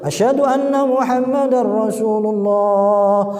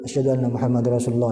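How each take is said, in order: First: The phrase is said loudly and forcefully. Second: The phrase is said softly and quietly.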